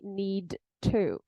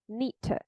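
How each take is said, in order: First: Both the d and the t sound clearly. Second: The d and t merge into one sound. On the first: "I don't really hear a d and a t in need to, right? She doesn't say need to" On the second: "She says need to"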